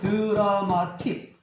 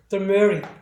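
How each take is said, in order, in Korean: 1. 모든 음절을 한국식으로 다 살려서 발음해요. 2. 영어식으로, 강세 없는 첫 음절을 약하게 발음해요. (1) "말 그대로 하면 콩글리시죠" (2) "dramatic하다 이렇게 발음을 해야 돼요"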